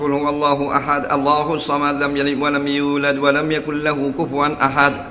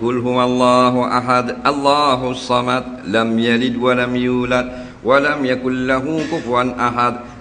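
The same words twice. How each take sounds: First: It is recited fast. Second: It is recited slowly.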